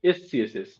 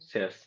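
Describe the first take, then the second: First: It is spelled out as S, C, S, S. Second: It is read as one word, sass.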